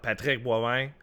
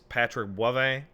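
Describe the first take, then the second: First: The name is pronounced the French way. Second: The name is pronounced the English way. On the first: This is not how the speaker says his own name. The speaker calls it wrong. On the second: This is how the speaker says his own name. The speaker calls it right. "I am clearly an anglophone, primarily English speaking person"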